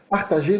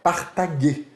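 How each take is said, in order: First: The g is soft, like zh. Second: The g is hard, like in go. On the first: The speaker calls it right. "som de J" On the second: The speaker calls it wrong. "nunca será partager"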